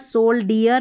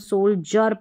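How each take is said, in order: First: The middle consonant is a plain 'd' sound. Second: The middle consonant is a 'j' sound. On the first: The speaker calls it wrong. "यहाँ पर सोल्डियर नहीं पढ़ते" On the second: The speaker calls it right. "हम सोल्जर पढ़ते हैं"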